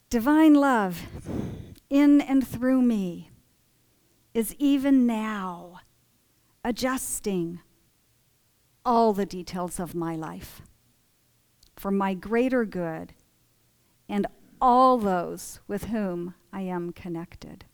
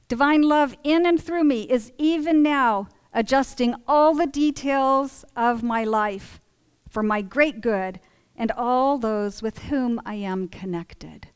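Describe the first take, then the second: First: It is said very slowly. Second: It is said at normal speed.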